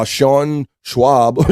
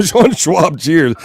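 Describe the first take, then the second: First: "Sean Schwab" stretched out very slowly, rising at the end; puzzled slow reading of "Sean Schwab"; slow drawn-out name. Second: "Sean Schwab" said through a laugh, higher; laughing reading of "Sean Schwab". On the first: Pretend. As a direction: savor the wrong name slowly. Reading odd new surname. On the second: Real, not acted. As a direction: crack up at the name. Laughs at the wrong name.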